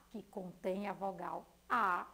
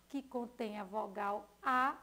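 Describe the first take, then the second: No difference in how they are said.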